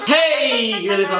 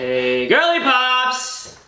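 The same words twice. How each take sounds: First: The word hey is strongly emphasized. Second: The word hey is not strongly emphasized.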